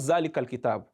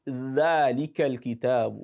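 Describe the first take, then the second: First: The first word begins with a buzzing z sound. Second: The first word begins with a soft voiced th. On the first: The speaker calls it wrong. "It's not Zalikal kitab" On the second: The speaker calls it right. "It is Dhalikal kitab"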